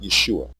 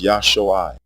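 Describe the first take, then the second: First: The first vowel is a short 'e' sound. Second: The first vowel is an open 'ah' sound. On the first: The speaker calls it wrong. "The original and correct pronunciation of this word is not Yeshua" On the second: The speaker calls it right. "It is Yahshua, with pure vowel sounds"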